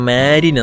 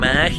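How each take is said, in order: First: The final n sound is pronounced. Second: The final n sound is dropped. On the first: "ഇംഗ്ലീഷിൽ എഴുതുമ്പോൾ" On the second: "നമ്മൾ ഫ്രഞ്ചിൽ ഒരു മാഹി എന്നാണ് പറയുന്നത്"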